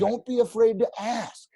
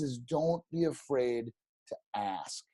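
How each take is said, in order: First: Pitched up and punched out; emphatic advice. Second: Slower, softer restatement of the advice; quiet slow repeat. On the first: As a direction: press the advice home. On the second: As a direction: let it land, slow and soft. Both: Real, not acted. Repeats his key advice.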